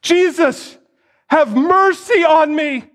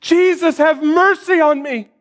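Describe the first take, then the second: First: High, desperate cry for mercy. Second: High pleading call; a blind man's desperate high cry. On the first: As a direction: call out over the crowd, begging. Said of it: "starts crying out". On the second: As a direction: beg him across the crowd. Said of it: "Can you feel his desperation?". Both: Acted.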